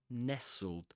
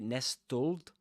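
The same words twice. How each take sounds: First: The t sound in the middle is silent. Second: The t sound in the middle is pronounced. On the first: The speaker calls it right. "That one" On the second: The speaker calls it wrong. "You don't say nestled"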